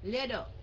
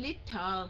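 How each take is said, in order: First: The middle consonant sounds like a soft d. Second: The middle consonant sounds like an aspirated t. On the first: The speaker calls it right. "mà là đồ" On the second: The speaker calls it wrong. "Không phải leader, không phải cái này là thờ"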